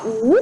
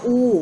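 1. ออกเสียงด้วยวรรณยุกต์จีนกลางเสียงที่ 2 2. ออกเสียงด้วยวรรณยุกต์จีนกลางเสียงที่ 1 (1) "ตัวที่2" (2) "วรรณยุกต์ตัวแรกอินผิง"

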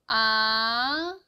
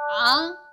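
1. 음이 낮은 데서 높은 데로 부드럽게 올라갑니다. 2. 음이 아주 낮게 떨어집니다. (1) "밑에서 위로 아주 스무스하게 올라갑니다" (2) "굉장히 음이 낮게 내려가야 되는데요"

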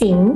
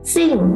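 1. ระดับเสียงขึ้นจากกลางไปสูง 2. ระดับเสียงตกอย่างรวดเร็วจากสูงไปต่ำ

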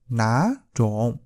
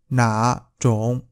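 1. Âm tiết đầu mang thanh sắc. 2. Âm tiết đầu mang thanh hỏi.

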